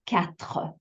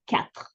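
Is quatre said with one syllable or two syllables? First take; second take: two; one. First: The word is drawn out into two syllables. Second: The word is said short as one syllable. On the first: The speaker calls it wrong. "we kind of want to make it a little longer. I often hear quatre" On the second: The speaker calls it right. "in French, we just say quatre. Much shorter"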